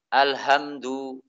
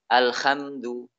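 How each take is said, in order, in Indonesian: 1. Ini h biasa yang berdesah. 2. Bunyi h-nya kasar dan serak. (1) "atau diganti dengan ha, suara ha" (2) "dia diganti dengan kha"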